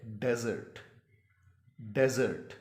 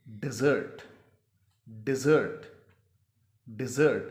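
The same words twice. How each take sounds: First: डेजर्ट as DEZ-ert, stress first; desert pronunciation. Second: डेजर्ट as di-ZERT, second syllable loud; short "di", punch "ZERT" in डेजर्ट; dessert pronunciation. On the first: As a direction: clear "e" in the first syllable of डेजर्ट. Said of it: "इसकी pronunciation जो है". (डेजर्ट, पहले हिस्से "डे" पर ज़ोर) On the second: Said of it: "इसका जो तलफ़ुज़ होगा". (डेजर्ट को "डिज़र्ट" बोलें, "ज़र्ट" पर ज़ोर) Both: Shown as a demonstration.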